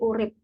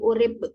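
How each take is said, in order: First: The word ends in a p sound. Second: The word ends in a b sound. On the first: "cenderung sama" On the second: "yang awalnya P menjadi B"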